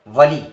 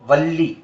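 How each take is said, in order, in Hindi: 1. शब्द में छोटा एक L बोला जाता है। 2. शब्द में लंबा, दोहरा L बोला जाता है। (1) "दरअसल यहां वली अरबी वाला वली नहीं है" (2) "इसका उच्चारण है वल्ली"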